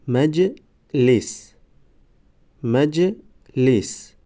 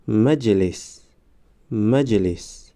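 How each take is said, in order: First: Slow, syllables held and separated; slow syllable reading. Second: Said in the usual way. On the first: Shown as a demonstration. Teacher models first readings for learners, slow syllable by syllable. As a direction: sound it out for learners, pausing between syllables. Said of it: "بار یکم و دویم آهسته".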